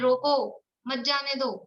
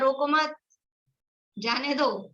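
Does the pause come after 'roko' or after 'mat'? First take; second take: after roko; after mat. First: The pause comes after the first word. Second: The pause comes after the second word. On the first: Stop the person; do not let them go. "रोको के बाद comma लगाया है" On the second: Do not stop the person; let them go. "मत के बाद लगाया"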